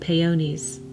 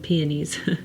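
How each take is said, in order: First: The word is said with a Spanish accent. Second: The word is said without a Spanish accent. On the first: This is how another family member says it. The speaker calls it right. "She has a lovely Spanish accent and she calls them peonies" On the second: This is the usual way it is said. The speaker calls it wrong. "I like that better than peonies"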